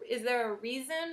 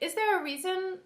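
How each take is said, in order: First: The question sounds doubtful and pointed. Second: The question sounds open and genuinely interested. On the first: The asker assumes there is no good reason. The speaker calls it wrong. "then you're implying that you know that there isn't" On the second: The asker sincerely wants to learn the reason. The speaker calls it right. "like I would like to learn from you right now"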